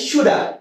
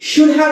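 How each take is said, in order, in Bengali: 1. শব্দগুলো মিশে একটি ছোট রূপ হয়ে যায়। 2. প্রতিটি শব্দ আলাদাভাবে ও পুরোপুরি উচ্চারিত হয়। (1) "ইউজ করতে পারি শুডা" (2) "শুড হ্যাভ এর বদলে"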